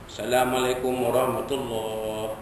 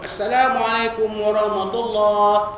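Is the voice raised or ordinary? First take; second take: ordinary; raised. First: It is said in an ordinary voice. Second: It is said in a raised, loud voice.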